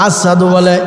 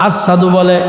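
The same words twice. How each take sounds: No difference in how they are said.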